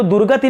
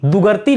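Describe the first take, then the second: First: दुर्गति said as dur-ga-ti, r closing the first syllable; dur-ga-ti, the right way, r after du; correct form. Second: दुगर्ती said as du-gar-ti, r before t; reading out the students' mistake दुगर्ती, du-gar-ti; wrong spelling read out. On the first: Teacher to students giving the right form, dur-ga-ti. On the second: Teacher to students showing the wrong form, du-gar-ti. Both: Shown as a demonstration. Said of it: "हमें तो दुर्गति लिखना है".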